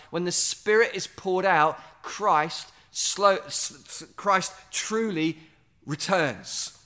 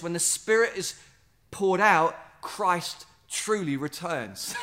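First: Slow, savoring each word, stumbling on Christ; said slowly. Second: Said in the usual way. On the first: Shown as a demonstration. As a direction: let it sink in word by word. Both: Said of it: "Say that slowly to yourself".

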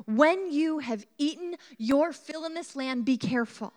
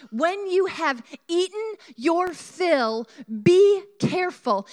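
First: Said in the usual way. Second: "When you have eaten your fill, be careful" slow, high and weighty; emphatic repeat. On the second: A narrator's reading. Preacher rereads the verse as a warning, emphatic and slow.

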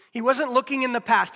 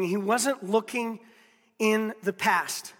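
First: Said in the usual way. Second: Slow, every word weighed, he wasn't looking in the past; slow emphasis. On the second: Shown as a demonstration. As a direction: lay it down slowly, word by word on wasnt. Preacher stresses key point.

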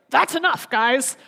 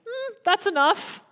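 First: A breezy, matter-of-fact "That's enough, guys" with a lift on "guys"; brisk casual. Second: A higher, slow, sighing "Hmm, that's enough", disappointed and resigned; weary sigh. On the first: Preacher showing Jesus casually telling the guys to drop it, brisk and breezy. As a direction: toss off "That's enough, guys" like a friend cutting off a joke. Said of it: "is this like". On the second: Preacher showing Jesus sadly resigned to the disciples, slow sighing. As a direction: let "Hmm" hang, then sigh out "that's enough" slowly. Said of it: "Or is this like".

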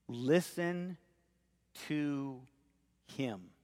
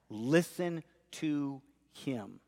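First: Each word set apart by pauses, fading softer to a near hush on him; Listen, pause, to, pause, him, spoken slowly and falling away; emphatic. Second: Listen stressed and drawn out slowly, falling on him; weight on Listen, said slowly and deliberately; emphatic. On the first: Preacher quoting the Father on the mountain, slow and emphatic. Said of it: "that is emphatic". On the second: Preacher repeating the Father's command to the congregation, emphatic. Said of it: "It's emphatic". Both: Shown as a demonstration.

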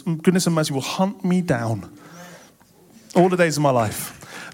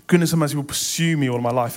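First: "hunt me down" leaned on with falling tune; stressed retranslation. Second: Said in the usual way. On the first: Shown as a demonstration. Preacher stressing the better translation, "hunt me down". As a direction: give "hunt me down" the weight as the better reading. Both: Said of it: "is better translated as".

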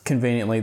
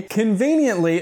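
First: Said in the usual way. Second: CONVENIENTLY drawn up high with mock wonder; sarcastic, high-pitched stress on "conveniently"; pointed emphasis. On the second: Real, not acted. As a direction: lean hard on "conveniently", pitched well up. Mocks the plot's convenience.

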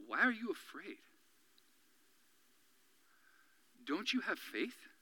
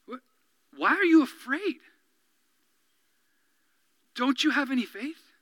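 First: Soft, gentle rebuke. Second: Challenging rebuke. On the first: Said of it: "says to them". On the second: Jesus confronting his frightened disciples with challenge. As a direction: press them with the question. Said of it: "the heat of challenge". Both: Retold or imitated.

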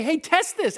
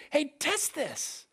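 First: Said in the usual way. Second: Plain. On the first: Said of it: "It's why I say". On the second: Shown as a demonstration. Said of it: "I'll say".

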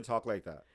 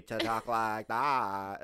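First: Said in the usual way. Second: Slow, stretched mock Valley drawl; mock Valley talk. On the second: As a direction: imitate a Valley girl, dragging each word.

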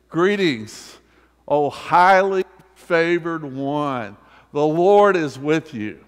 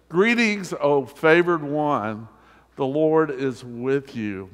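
First: Louder, building to a ringing call; grand proclamation. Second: Raised, slow and solemn announcement; angel's greeting. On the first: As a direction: announce it to the whole room with full force. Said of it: "and saying to you and me". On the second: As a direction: proclaim it like a herald angel. Preacher reads the angel's greeting. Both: Acted.

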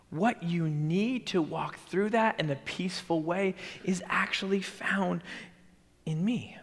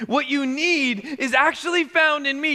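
First: Whispered promise. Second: Said in the usual way. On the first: Acted. Jesus promising his followers peace, whispered. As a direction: breathe it as a close secret. Whispered, then said aloud again.

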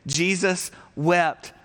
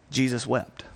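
First: Jesus wept drawn out slowly, weight on wept; slow emphatic reading. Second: Said in the usual way. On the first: Shown as a demonstration. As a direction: read it slowly together like a congregation. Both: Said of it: "why don't you say this with me".

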